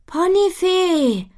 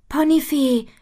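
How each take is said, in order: First: Long high drawn-out call. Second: Calling out. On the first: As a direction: call her name across the garden. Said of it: "ruft Butterblume ihr nach". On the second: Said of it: "ruft Butterblume". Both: A narrator's reading.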